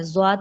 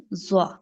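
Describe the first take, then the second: First: زواد closed with a final "d"; mistaken zwaad. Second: زوا ending on an open "aa", no d; corrected zwaa. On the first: Teacher showing the student's mistake, زواد with a final d. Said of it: "زواد نہیں". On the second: Teacher correcting the student's reading, زوا with no final d. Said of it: "زواد نہیں، یہ زوا". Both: Shown as a demonstration.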